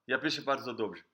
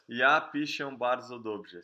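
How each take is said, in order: First: The sentence is spoken very fast, in one burst. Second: The sentence is spoken slowly and carefully. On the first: The speaker calls it right. "tipo um tiro de metralhadora" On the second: The speaker calls it wrong. "você não vai falar"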